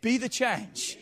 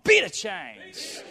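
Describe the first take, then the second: First: It is said in a plain, neutral way. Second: It is said with bold, sassy attitude.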